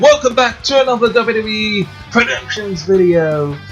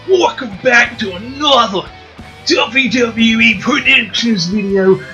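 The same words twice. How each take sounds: First: It is said in the speaker's ordinary accent. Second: It is said in a put-on Australian accent.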